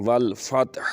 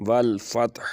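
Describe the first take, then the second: The two takes are said the same way.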